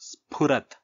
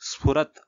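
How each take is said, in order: First: The consonant after s is a breathy p. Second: The consonant after s is an f, lips apart. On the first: The speaker calls it right. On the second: The speaker calls it wrong.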